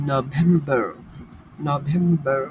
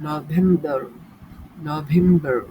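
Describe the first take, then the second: No difference in how they are said.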